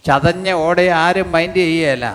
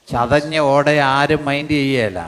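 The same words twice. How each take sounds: The two takes are said the same way.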